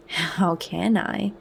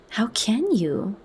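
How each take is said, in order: First: "How can I?" slow and inward, stretched out; meditative. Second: Amazed distress. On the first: Bernard echoing Lenina's question, musing to himself: slow meditative. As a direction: mull the question over slowly. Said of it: "In a different key". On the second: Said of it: "in a voice of amazed distress". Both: A narrator's reading.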